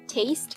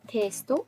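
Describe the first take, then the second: First: It is said the English way, ending in t. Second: It is said the Japanese way, ending in to.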